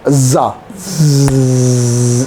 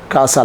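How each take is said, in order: First: The middle s is a buzzing voiced z. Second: The middle s is a voiceless hiss. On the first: The speaker calls it right. "لازم تبقى اس رنانه" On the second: The speaker calls it wrong. "ما بقولش كاسا. كاسا لا"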